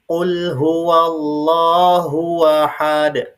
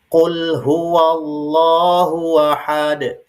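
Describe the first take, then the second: The two takes are said the same way.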